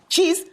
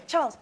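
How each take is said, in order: First: Cheese, said as one short ee word in place of Charles; mangled name. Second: Said in the usual way. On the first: Retold or imitated. DJ mishears the kid's name as Cheese. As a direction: turn Charles into Cheese, a bit louder. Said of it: "a Nigerian station". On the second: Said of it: "a little English kid".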